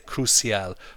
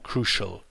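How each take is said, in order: First: It is said with a Southern European accent. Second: It is said with a native English pronunciation. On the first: The speaker calls it wrong. "Spanish, Italian, and French cousins often say crucial" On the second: The speaker calls it right. "but it's actually crucial"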